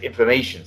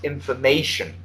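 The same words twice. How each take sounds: First: Quick, rushed "information" with syllables run together; rushed imitation. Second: "Information" spoken carefully, every syllable distinct; slow and clear. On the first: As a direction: rattle off "information" as the student did. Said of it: "you said it very fast". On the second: Shown as a demonstration. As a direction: model "Information" slowly for the student. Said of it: "Slow it down".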